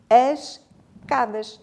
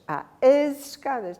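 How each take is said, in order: First: No Z sound links the two words. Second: A clear Z sound links the two words. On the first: It sounds like a different word, cadas. The speaker calls it wrong. "Não há cadas" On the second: The hidden E of escadas can be perceived. The speaker calls it right. "Temos que ouvir o som de Z"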